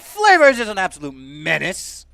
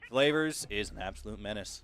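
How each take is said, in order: First: It is said with high energy. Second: It is said with low energy. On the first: "Say it with gusto" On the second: "That's not hype enough"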